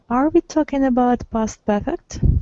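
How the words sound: The voice rises at the end. It is a question. "This is the rising intonation"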